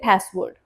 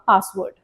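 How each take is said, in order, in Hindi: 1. यह अमेरिकी लहजे में कहा गया है। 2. यह ब्रिटिश लहजे में कहा गया है। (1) "In American accent, we say" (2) "in like British accent, we say"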